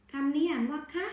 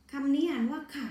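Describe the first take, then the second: First: คะ said with a high rising tone; high tone demo. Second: ค่ะ said with a falling, lower tone; lower tone demo. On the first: Teacher shows the unmarked คะ, ending on a rising tone. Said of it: "เสียงจะต่ำลงนะคะ". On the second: Teacher contrasts the mai ek ค่ะ with a falling tone. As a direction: drop the voice down on ค่ะ. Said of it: "แต่พอมีวรรณยุกต์เอกเสียงจะต่ำลงนะคะ". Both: Shown as a demonstration.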